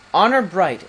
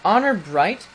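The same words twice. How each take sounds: First: "Honor bright" louder, falling as a firm answer; affirming tune. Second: "Honor bright" higher, rising as a question; questioning tune. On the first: Prince gives his father his pledge, "Honor bright" firm and falling. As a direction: confirm "Honor bright" with a decisive fall. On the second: King seeks the prince's pledge, "Honor bright" questioning and rising. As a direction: ask "Honor bright" with a lift at the end. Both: A narrator's reading.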